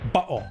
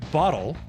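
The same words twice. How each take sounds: First: The word is said in a British accent. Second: The word is said in an American accent. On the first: "But in a British accent like Loons, you might say" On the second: "which is pronounced in my accent, that's pronounced bottle"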